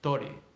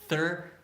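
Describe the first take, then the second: First: It begins with t and has an o vowel. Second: It begins with th and has an er vowel. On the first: The speaker calls it wrong. "what I hear from uh, Mexican Spanish, Guatemalan Spanish is something like tori" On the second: The speaker calls it right. "It's thir- thirty"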